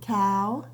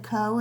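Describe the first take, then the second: First: The vowel sounds like 'ow' in now. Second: The vowel sounds like 'oh' in go. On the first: The speaker calls it right. "sometimes O W words say ow" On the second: The speaker calls it wrong. "would you have said co as a word? No, that doesn't make sense"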